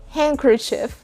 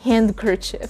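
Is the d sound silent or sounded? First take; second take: silent; sounded. First: The d sound is silent. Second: The d sound is clearly pronounced. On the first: The speaker calls it right. "Handkerchief and not handkerchief" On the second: The speaker calls it wrong. "and not"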